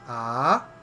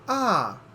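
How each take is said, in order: First: The pitch starts low and rises. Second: The pitch starts very high and falls. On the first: "the second tone is a rising tone" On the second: "very high and then falls down like this"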